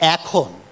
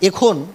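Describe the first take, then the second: First: The first vowel is open, like in 'cat'. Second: The first vowel is closer, like in 'bed'. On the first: The speaker calls it right. "আরেকটি শব্দ হচ্ছে এখন" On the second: The speaker calls it wrong. "এটিকেও ঢং করে এখন বলার দরকার নেই"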